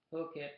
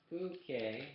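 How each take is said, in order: First: Said in the usual way. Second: "Phuket" sounded out slowly as a pronunciation guide; shown pronunciation. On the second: Shown as a demonstration. Reader showing listeners how the Thai island is said, careful pronunciation of "Phuket". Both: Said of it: "pronounced Phuket".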